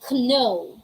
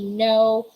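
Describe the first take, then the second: First: The word begins with a K sound. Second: The word begins with an N sound. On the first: The speaker calls it wrong. "We don't say no. There's there shouldn't be letter K sound there" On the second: The speaker calls it right. "We say no"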